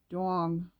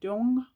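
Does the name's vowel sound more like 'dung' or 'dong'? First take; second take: dong; dung. First: The vowel sounds like the 'o' in 'dong'. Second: The vowel sounds like the 'u' in 'dung'. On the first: The speaker calls it right. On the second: The speaker calls it wrong.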